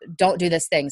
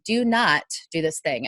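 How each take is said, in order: First: The negative is contracted and its ending fades. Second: The negative is a separate, stressed word. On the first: The speaker calls it wrong. "The N T on don't, ... kind of trails off" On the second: The speaker calls it right. "emphasize the not with both your voice and your hands"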